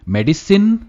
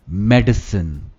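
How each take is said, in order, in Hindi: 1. आखिरी शब्दांश पूरा 'sin' है। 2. आखिरी शब्दांश कमज़ोर 'sun' है। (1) "सिन नहीं कहते" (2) "सन कहते हैं"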